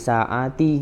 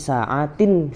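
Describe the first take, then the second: First: The word ends without a final n sound. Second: The word ends with a final n sound. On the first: The speaker calls it wrong. "jangan di saati gitu" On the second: The speaker calls it right. "tapi saatin fil yaum tetap dibaca"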